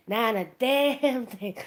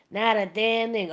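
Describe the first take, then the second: First: Slowed, in a put-on voice; slow comic punchline. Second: Said in the usual way. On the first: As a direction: drag out "damn" for the laugh. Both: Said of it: "Wayne Brady comes out and goes".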